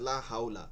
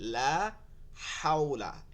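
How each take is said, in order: First: The h is a light, plain breath sound. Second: The h is a deep sound from the throat. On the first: The speaker calls it wrong. "অনেকেই বলতেছে লা হাউলা" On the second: The speaker calls it right. "এটা গলার মধ্যে নিয়ে পড়তে হবে"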